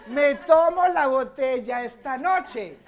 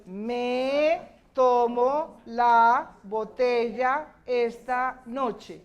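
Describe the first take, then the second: First: Said in the usual way. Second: "Me tomo la botella esta noche" very slow, pause after each word. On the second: Shown as a demonstration. Teacher has class count words, slow word by word. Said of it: "cuántas palabras hay".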